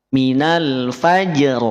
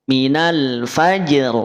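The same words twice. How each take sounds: No difference in how they are said.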